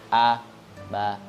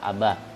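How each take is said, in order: First: It is read with a break between syllables. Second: It is read smoothly as one unit. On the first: The speaker calls it wrong. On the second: The speaker calls it right. "langsung dibaca"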